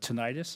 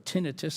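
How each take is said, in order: First: It is said the American way. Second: It is said the British way.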